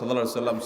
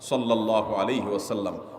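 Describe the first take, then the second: First: It is rattled off hurriedly. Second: It is said slowly and lovingly.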